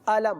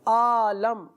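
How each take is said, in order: First: The first vowel is kept short. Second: The first vowel is drawn out long. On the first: The speaker calls it right. "तो खींचेंगे नहीं" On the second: The speaker calls it wrong. "हमजा को खींच दिया जाता हो"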